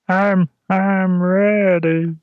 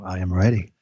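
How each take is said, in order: First: It is said in a put-on character voice. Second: It is said in a deep voice. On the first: "How would you say it if you were, um, you know, one of the voices from Solo" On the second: "So you can say it in the deep voice if you want to"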